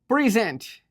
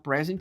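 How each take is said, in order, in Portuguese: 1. A sílaba tônica é a segunda. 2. A sílaba tônica é a primeira.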